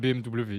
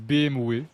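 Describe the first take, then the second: First: The W is said the French way. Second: The W is said the Belgian way. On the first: "pas B M W" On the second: "Ils disent B M W"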